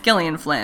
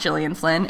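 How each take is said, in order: First: The name begins with a hard G sound. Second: The name begins with a soft J sound. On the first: The speaker calls it right. "The G is pronounced hard, as in Gil, not Jill" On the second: The speaker calls it wrong. "It's not"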